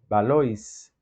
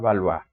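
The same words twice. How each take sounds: First: The name is read with Spanish sounds. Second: The name is read with French sounds.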